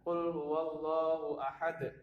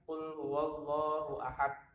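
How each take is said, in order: First: The final d ends with a bouncing echo. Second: The final d ends without a bouncing echo. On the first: The speaker calls it right. "Kemudian dipantulkan" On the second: The speaker calls it wrong. "bukan ... Itu cara membaca yang keliru ya"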